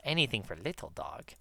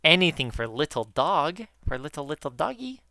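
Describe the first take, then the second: First: Quieter, almost to herself; soft aside. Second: Put-on sing-song baby talk to a pet; baby talk to dog. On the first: Retold or imitated. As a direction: murmur it softly. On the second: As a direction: coo it like talking to your dog. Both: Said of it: "That's what I say to Diego a lot".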